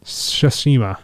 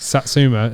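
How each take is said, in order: First: "Tsushima" said carefully as tsoo-SHEE-ma; correct pronunciation. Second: "Satsuma" said like the fruit, sat-SOO-ma; mispronounced as Satsuma. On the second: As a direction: say "Satsuma" with a plain s and t. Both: Shown as a demonstration. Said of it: "It's not Tsushima".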